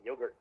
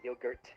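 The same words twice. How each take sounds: First: The final T is soft and barely pronounced. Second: The final T is clearly and crisply pronounced. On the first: "Americans don't even like enunciate the T" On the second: "They don't say yogurt"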